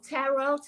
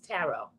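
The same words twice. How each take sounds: First: The final T sound is pronounced. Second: The final T sound is silent. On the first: The speaker calls it wrong. "She didn't know how to pronounce it" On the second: The speaker calls it right. "The T at the end is silent"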